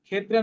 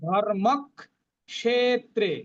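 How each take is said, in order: First: The cluster is said as a plain kh sound. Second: A k sound is doubled before the ksh cluster. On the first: The speaker calls it wrong. "ক্ষেত্রে নয়" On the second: The speaker calls it right. "উচ্চারণ করতে হবে ধর্মক ক্ষেত্রে"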